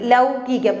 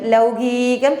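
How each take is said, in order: First: The vowel is kept short. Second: The vowel is drawn out long. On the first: The speaker calls it right. "ഹ്രസ്വമായിട്ട് പറഞ്ഞാൽ മതി" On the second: The speaker calls it wrong. "ലൗകികം എന്ന് പറയുന്നത് തെറ്റാണ്"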